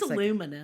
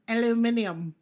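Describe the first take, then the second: First: It is said the American way, with four syllables. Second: It is said the British way, with five syllables. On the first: The speaker calls it right. "I want them to say aluminum" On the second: The speaker calls it wrong. "It's pretentious to say it that way"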